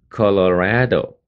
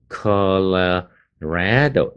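First: Said in the usual way. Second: "Colorado" very slowly in two parts, col-uh, RA-do; stress on RAD. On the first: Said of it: "那就是". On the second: Shown as a demonstration. Teacher breaking the name down, "Colorado" slowly with heavy RA. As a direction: break up "Colorado", leaning on a drawn-out RA. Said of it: "那个red的地方最重".

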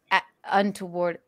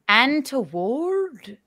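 First: Said in the usual way. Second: Slow, drawn-out Irish "Untoward"; mock Irish accent. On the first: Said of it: "Somebody said, say". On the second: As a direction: stretch "Untoward" in put-on Irish. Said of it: "how you talk in an Irish accent".

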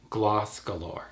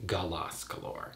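First: "Gloss Galore" with Gloss as one syllable; correct pronunciation. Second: "Gloss Galore" with Gloss split into guh-LOSS; softly, slowly add a vowel after the G in "Gloss Galore"; wrong pronunciation. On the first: Clarifying a friend's channel name, "Gloss Galore" with one-syllable Gloss. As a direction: say "Gloss Galore" slowly, no vowel after the G. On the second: Showing the wrong channel name, "Gloss Galore" as guh-LOSS Galore. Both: Shown as a demonstration. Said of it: "not Gloss Galore".

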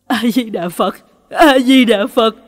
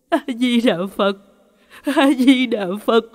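First: Buddhist chant swelling to a loud cry; loud frightened chanting. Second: Mildly fearful Buddhist chant; chanted, pray with a touch of crying in the voice; tearful chanting. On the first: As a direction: chant forcefully out of fear, building in volume. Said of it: "miệng tụng kinh to hơn". (chanted, tụng kinh to, dồn dập vì sợ) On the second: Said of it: "vừa khóc vừa tụng kinh". (chanted, tụng kinh sợ hãi, hơi mếu máo) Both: A narrator's reading.

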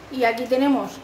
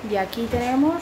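No difference in how they are said.

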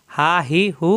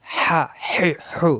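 First: "হা হি হু" voiced with pressure from the middle of the throat; pressed-throat ha. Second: "হা হি হু" whispered as pure breath, slow and unvoiced; breathy soft ha. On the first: Teacher contrasting the pressed ha: voiced, throat squeezed. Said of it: "কণ্ঠনালীতে চাপ সৃষ্টি হবে". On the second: Teacher showing the soft ha: slow whispered breath. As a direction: let warm air out on "হা হি হু" with no voice, slowly. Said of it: "গরম বাতাসের সাহায্যে উচ্চারণ". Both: Shown as a demonstration.

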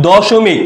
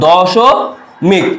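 First: Said in the usual way. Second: দশমিক stretched out very slowly, syllable by syllable; slowly drawn out. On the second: Shown as a demonstration. Tutor to students, dwelling on the word দশমিক slowly. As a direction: draw out দশমিক so the দশ stands out. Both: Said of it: "খেয়াল করো, প্রথমে যদি বলি".

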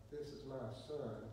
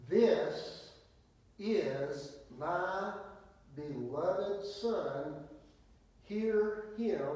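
First: Soft, low throwaway delivery; quiet, underplayed announcement; little, understated voice. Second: Loud, weighty pauses between phrases; slow, emphatic divine proclamation; booming exclamation. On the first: Shown as a demonstration. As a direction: say it small and meek, with no force. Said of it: "that wasn't just a little". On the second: Acted. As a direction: thunder it out as God's command from the cloud. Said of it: "Exclamation point. That, that wasn't just a little".

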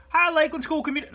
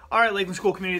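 First: A Southern twang tried out, then dropped; Southern accent. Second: Said in the usual way. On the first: Shown as a demonstration. Southern accent tried for the school greeting. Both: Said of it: "No, I don't do a Southern accent".

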